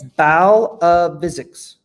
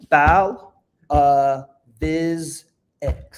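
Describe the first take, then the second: First: The ending sounds like the word physics. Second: The ending is said as separate syllables viz-ex. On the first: The speaker calls it wrong. "It's closer" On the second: The speaker calls it right.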